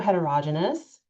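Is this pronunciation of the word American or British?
British. The word is said with a British pronunciation.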